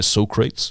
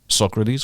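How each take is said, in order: First: The name is said in a playful surfer-dude style. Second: The name is said in the usual standard way. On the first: The speaker calls it right. "we say Socrates, like in Bill and Ted's Excellent Adventure" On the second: The speaker calls it wrong. "we don't say Socrates"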